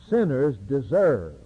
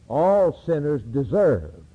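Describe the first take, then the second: First: Said in the usual way. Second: All hit hard and drawn out, slow; slow preacher's weight on All; stress on All. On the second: Shown as a demonstration. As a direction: lean on All sinners deserve slowly.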